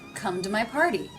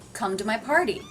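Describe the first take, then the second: First: The T in 'to' is a soft flap. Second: The same.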